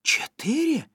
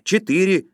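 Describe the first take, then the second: First: High-pitched, incredulous echo; astonished question. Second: "Четыре" as a loud, falling answer; firm confirmation. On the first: Zhenya hears about the program keys, astonished. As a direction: ask it in amazement, voice leaping up. Zhenya echoes number in surprise. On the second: Yura answers Zhenya's question, "Четыре" said firmly and loudly. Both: A narrator's reading.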